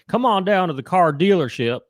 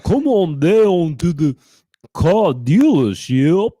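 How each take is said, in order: First: It is said in a plain Southern accent. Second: It is said in a Dracula-style Southern accent. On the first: "So if you're southern, you go howdy" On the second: "so it's Dracula with a southern accent"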